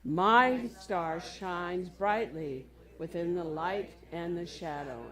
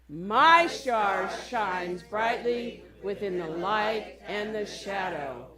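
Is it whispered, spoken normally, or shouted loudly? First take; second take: normally; shouted loudly. First: It is said in a normal voice. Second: It is said as loud as possible.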